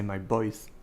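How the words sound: Voice begins with a b sound. "they say my voice because they don't see the difference between b and v"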